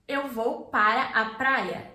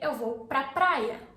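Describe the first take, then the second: First: The words 'para a' are said in full. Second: The words 'para a' merge into one syllable. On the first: "Instead of saying this" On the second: "you say"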